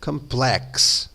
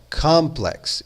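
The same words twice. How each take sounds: First: The stress is on the second syllable. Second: The stress is on the first syllable. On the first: The speaker calls it wrong. "e não complex" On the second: The speaker calls it right. "a ênfase ou stress... é colocada na primeira sílaba. Então você fala complex"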